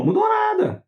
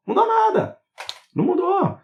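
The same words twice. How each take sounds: First: High, squeaky mock reply; mocking squeak. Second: High squeaky scoff; mocking squeak. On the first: Mocking his audience in a high squeal. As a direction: squeal it out in mockery. Mocking answer to own question. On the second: Scoffing at viewers whose healing failed, high squeak. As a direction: squeak the denial to mock them.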